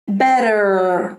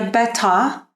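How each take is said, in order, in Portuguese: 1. A consoante do meio soa como um D rápido. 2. A consoante do meio é um T claro. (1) "como se fosse um quick D, como por exemplo, better no inglês americano" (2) "Já no inglês britânico ficaria better"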